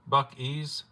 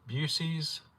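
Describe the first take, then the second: First: The first syllable sounds like 'buck'. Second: The first syllable does not sound like 'buck'. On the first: The speaker calls it right. "it's Buck E's, like Buck Wild" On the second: The speaker calls it wrong. "I've been saying it way wrong then"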